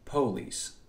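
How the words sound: It is said in an AAVE pronunciation.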